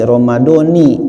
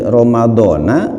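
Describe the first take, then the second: First: The word ends with an i vowel. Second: The word ends with an a vowel. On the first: "Ramadhana atau Ramadhani?" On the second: "Ramadhana atau Ramadhani?"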